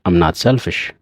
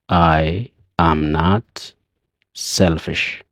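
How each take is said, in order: First: I am is shortened quickly into I'm. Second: I am is said as two full words. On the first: "Dafnee yeroo jennu" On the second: "Takka takkaan yeroo jennu"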